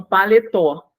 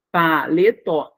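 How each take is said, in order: First: Said in the usual way. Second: "paletó" slowly split pa-le-tó; slow, spaced-out "paletó" ending on tó; syllable by syllable. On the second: Shown as a demonstration. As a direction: break "paletó" into three separate syllables. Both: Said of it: "trissílaba".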